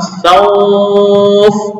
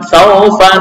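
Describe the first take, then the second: First: The word ends on a bare consonant. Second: The word ends with a short a vowel. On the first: The reader stops on this word. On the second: The reading continues without stopping.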